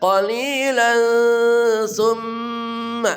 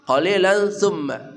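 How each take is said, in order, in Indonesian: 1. Huruf n samar dengan dengung sengau. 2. Huruf n diucapkan jelas tanpa dengung. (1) "samar dan dengung" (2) "jangan qalilan summa"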